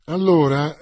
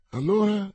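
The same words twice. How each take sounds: First: ALLORA loud and firm, opening an explanation; resuming. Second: ALLORA asked high, as a prompting question. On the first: D'Artagnan resuming his story for Aramis, emphatic "Allora". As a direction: take up "Allora" strongly, leading onward. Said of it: "riprese D'Artagnan". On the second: Aramis prompting his friend to continue, questioning "Allora". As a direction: ask "Allora" on a raised pitch. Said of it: "domandò Aramis". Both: A narrator's reading.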